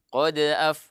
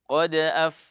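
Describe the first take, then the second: No difference in how they are said.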